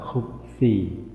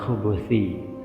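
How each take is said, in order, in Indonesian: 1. Kata khubuthi diucapkan tanpa vokal tengah. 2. Kata khubuthi diucapkan dengan vokal tengah. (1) "Bisa juga dibaca khubthi" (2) "lebih tepat dibaca khubuthi"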